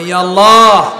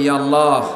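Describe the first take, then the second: First: It is said the most loudly. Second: It is said more loudly.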